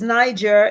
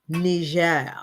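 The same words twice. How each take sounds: First: The name is pronounced in an English way. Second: The name is pronounced in a French way. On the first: The speaker calls it wrong. "I always thought it was Niger. It's not" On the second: The speaker calls it right. "The proper pronunciation is Niger. It's French"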